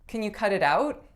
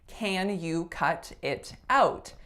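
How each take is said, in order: First: The words run together with linked sounds. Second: Each word is said separately and fully. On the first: "what I said at the very beginning of this video" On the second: "the individual words that make up this phrase"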